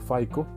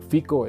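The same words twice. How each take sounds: First: It is said with English vowels and sounds. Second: It is said with Spanish vowels and sounds. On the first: "en inglés sería FICO" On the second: "yo lo pronuncio más eh, bien en, en, español"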